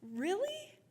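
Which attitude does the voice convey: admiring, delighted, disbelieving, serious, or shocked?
delighted. It sounds happy and delighted. The speaker is delighted by the news. "As in, I'm delighted"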